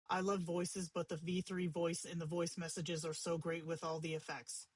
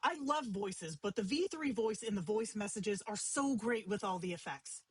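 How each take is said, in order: First: It is read flatly, with little pitch movement. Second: It is read expressively, with many pitch shifts.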